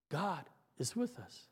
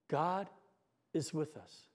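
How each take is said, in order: First: Lower, much softer hushed echo; child whispering comfort to the next child; whispered. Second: Whispered words. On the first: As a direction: breathe it like a child passing a secret. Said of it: "as the words are whispered". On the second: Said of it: "she whispers to the child". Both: Retold or imitated.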